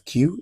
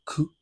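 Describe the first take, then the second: First: The letter is said as English 'kyoo'. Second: The letter is said with a French 'ku' sound. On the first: The speaker calls it wrong. "You don't pronounce as Q" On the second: The speaker calls it right. "you say Q ... That's how French pronounces it"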